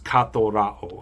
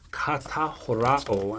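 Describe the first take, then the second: First: One joined word with an aspirated th sound. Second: Two separate words with a plain t sound. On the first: The speaker calls it right. "It's katorao. ... instead of a tau, you get a theta" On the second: The speaker calls it wrong. "I got it a little bit wrong"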